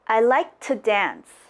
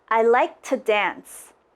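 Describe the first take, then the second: First: The word 'to' is reduced to just a t. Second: The word 'to' is reduced to just a t.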